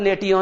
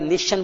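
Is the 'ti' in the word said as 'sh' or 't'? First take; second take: t; sh. First: The 'ti' is pronounced as a 't' sound. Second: The 'ti' is pronounced as a 'sh' sound. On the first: The speaker calls it wrong. "इसको नेटियन नहीं बोलेंगे आप" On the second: The speaker calls it right. "निशन बोलते"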